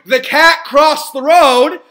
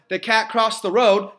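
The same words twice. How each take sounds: First: It is said with lively, varied inflection. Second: It is said flatly, with little inflection. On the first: "Number two, you're looking for the cat to cross the road" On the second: "number one"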